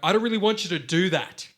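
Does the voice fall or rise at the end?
rise. The voice rises at the end of the sentence. The speaker sounds unsure. "we go"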